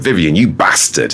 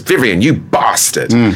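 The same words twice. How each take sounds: First: It is said in a northern English accent. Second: It is said in a southern English accent. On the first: This is the harsher home way of saying it. "it just sounds so much more aggressive, and it reminds me of Dad" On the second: This is the softer television way of saying it. "when Rick Mayall in The Young Ones says"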